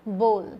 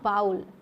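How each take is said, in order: First: The vowel sounds like the one in goal. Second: The vowel sounds like the one in owl. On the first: The speaker calls it right. "आपको क्या बोलना है, बोल बोलना है इसको" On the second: The speaker calls it wrong. "Not बाउल"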